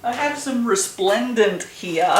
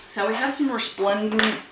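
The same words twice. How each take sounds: First: Slow, louder redo with resplendent said in full as 'ɹɪsplɛ̃ndənt'; careful correction. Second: Stumbling over resplendent; garbled first try. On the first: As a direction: say resplendent slowly and clearly as a correction. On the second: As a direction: trip over the word resplendent, slurred as 'ɔɹsplɛ̃nd'. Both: Real, not acted. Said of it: "was what that sentence was supposed to be".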